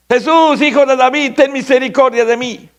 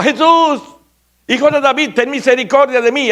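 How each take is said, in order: First: High, loud crying out for mercy; desperate shout. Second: Very high, loud cry for mercy; louder desperate shout. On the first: Blind Bartimeo begging Jesus as he passes, desperate high shout. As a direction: call out with all your need. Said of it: "Y empieza a gritar, desesperado". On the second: Bartimeo crying out louder as the crowd hushes him, desperate shout. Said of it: "más gritaba". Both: Retold or imitated.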